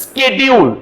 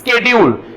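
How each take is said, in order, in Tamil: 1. வார்த்தை sk ஒலியில் தொடங்குகிறது. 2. வார்த்தை sk ஒலியில் தொடங்குகிறது.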